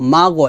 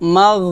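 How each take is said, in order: First: The final consonant bounces with an echo. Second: The final consonant ends smoothly without echo. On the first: The speaker calls it wrong. "মা গ এভাবে কলকলার মতো করব না" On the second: The speaker calls it right. "মাগ মাগ এভাবে বলতে হবে"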